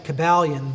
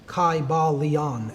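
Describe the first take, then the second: First: The first vowel is a short sound. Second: The first vowel is a long I sound. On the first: It is a modern Anglicized pronunciation. The speaker calls it wrong. "like to call it the Kybalion, but I see that as far too like uh, modern Anglicized" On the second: It is closer to the ancient Greek pronunciation. The speaker calls it right. "it would have been a long I sound"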